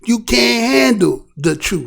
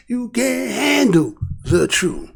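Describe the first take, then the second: First: Slow, lightly dramatic movie line; drawn-out challenge, lightly acted; Jack Nicholson line. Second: Slow, softer movie-line delivery; a light nod to the courtroom scene; Jack Nicholson quote. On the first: Quoting the movie to the chat, slow and dramatic. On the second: Retold or imitated. Quoting Jack Nicholson to the viewers, slow and understated. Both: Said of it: "Jack Nicholson said".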